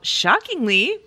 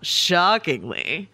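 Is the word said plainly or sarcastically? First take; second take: plain; sarcastic. First: The word is said in a plain, neutral way. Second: The word is said with heavy sarcastic inflection. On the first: The speaker calls it wrong. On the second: The speaker calls it right.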